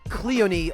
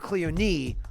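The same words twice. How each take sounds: First: The stress is on the first syllable. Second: The stress is on the third syllable. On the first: "Cleone on the first syllable" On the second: "or Cleone on the third syllable, which I highly doubt"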